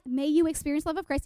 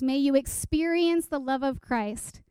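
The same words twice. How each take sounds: First: Verse rattled off fast; freaking out. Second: Measured, even recital of Scripture; verse recitation. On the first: Retold or imitated. Giddy teen self rechecks the verse, rapid recital. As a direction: race through it like skimming a checklist. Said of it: "And I'm freaking out". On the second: Acted. Speaker quotes a memorized verse to listeners, measured recitation. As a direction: recite the verse carefully at an unhurried pace. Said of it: "in the translation I memorized it".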